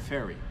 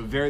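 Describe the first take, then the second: First: The word begins with an F sound. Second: The word begins with a V sound. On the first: The speaker calls it wrong. "they pronounce it as F" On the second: The speaker calls it right.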